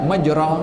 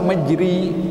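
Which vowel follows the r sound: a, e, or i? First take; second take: a; i. First: The vowel after r is an open a. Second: The vowel after r is a closed i. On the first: "Kalau baris atas bacanya sepatutnya majra" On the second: "nak baris bawah majri"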